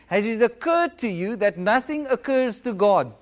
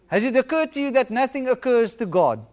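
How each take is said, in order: First: The sentence is spoken slowly and deliberately. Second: The sentence is spoken at a normal pace.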